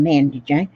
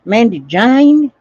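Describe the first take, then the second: First: Said in the usual way. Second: Slow drawled "Mandy Jane" with rising lilt; lightly Southern, slow and louder. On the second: Pretend. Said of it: "That's Southern talk".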